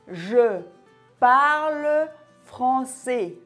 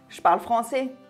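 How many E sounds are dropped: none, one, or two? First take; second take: none; two. First: It is slow, with every E sound pronounced. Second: It is fastest, with two E sounds dropped. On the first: "Lorsqu'on parle lentement, on prononce bien chaque son" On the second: "si je parle encore plus vite... j'ai effacé deux E"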